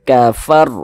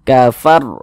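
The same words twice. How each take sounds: Both takes have the same delivery.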